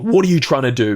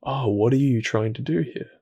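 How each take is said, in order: First: A louder, pushy interrogation; wrong way, tense challenge; demanding. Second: Softer, gently curious question; right way, soft open inquiry; loving curiosity. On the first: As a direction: confront it sharply, as if accusing. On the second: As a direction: ask it kindly, with genuine wonder. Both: Shown as a demonstration.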